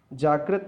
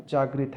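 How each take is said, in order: First: जागृत in its rejected form, pitched slightly up; wrong middle syllable. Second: जागृत in its accepted form, settling down; corrected middle syllable. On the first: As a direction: give जागृत as the faulty reading. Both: Shown as a demonstration. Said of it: "रा की मात्रा है".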